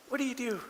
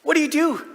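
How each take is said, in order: First: High but hushed question; softer echoed question. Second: High, loud, punchy question; loud exclaimed question. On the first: Dad after his goal celebration, quietly asking. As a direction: drop the volume and keep the pitch up. Repeats the question, dropping volume. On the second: Dad to onlookers after his goal celebration, loudly exclaiming. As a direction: throw the question out at a high pitch. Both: Acted.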